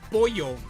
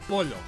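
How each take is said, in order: First: The middle consonant sounds like an English Y. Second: The middle consonant sounds like an English L. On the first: The speaker calls it right. "when you have a double L in Spanish, it does the Y sound" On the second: The speaker calls it wrong. "instead of polo"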